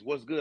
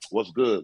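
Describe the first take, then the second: First: It sounds like a friendly greeting. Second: It sounds like a confrontational challenge.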